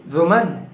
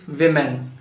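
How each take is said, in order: First: "woman" said with "wu" as first syllable; wrong WOMAN. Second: "women" said with "wi" as first syllable; corrected WOMEN. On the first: Teacher quizzing learners on "woman", said as WU-mun. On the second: Teacher correcting learners, "women" said as WIM-en. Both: Shown as a demonstration. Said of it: "it's not woman".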